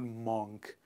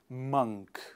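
First: The vowel differs from the one in spunk. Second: The vowel sounds like the one in spunk. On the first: The speaker calls it wrong. "It is not monk" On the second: The speaker calls it right. "similar to the sound in the word spunk"

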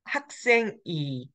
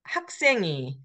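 First: A break separates the noun from the particle. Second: The final consonant carries over into the particle. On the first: The speaker calls it wrong. "the way you should read it is not" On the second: The speaker calls it right. "You have to remember the liaison rule"

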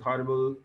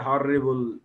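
First: The middle consonant is short and single. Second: The middle consonant is held long and doubled. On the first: The speaker calls it right. "No doubling is there required for pronunciation" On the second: The speaker calls it wrong. "even doubling of the consonant, we say horrible"

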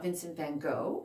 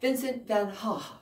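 First: It is said with an American pronunciation. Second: It is said with a Dutch pronunciation.

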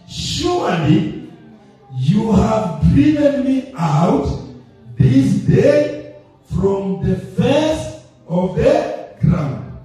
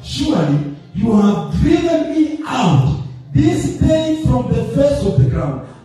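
First: It is read very slowly. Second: It is read at a normal pace.

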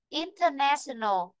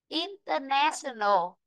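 No difference in how they are said.

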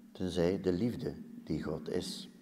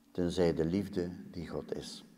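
No difference in how they are said.

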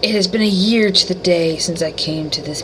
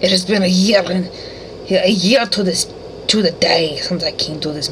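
First: It is read in the speaker's normal accent. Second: It is read in a put-on Russian accent.

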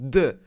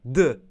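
Both takes have the same delivery.

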